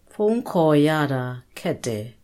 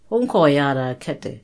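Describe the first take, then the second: First: It is said slowly. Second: It is said at normal speed.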